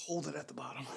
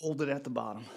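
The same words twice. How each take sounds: First: Strained whisper mid rep. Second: Said in the usual way. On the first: Real, not acted. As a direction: whisper it through the effort. Coaching during a rep.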